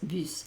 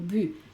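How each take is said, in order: First: The final s is pronounced. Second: The final s is silent. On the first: The speaker calls it right. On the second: The speaker calls it wrong. "no digo"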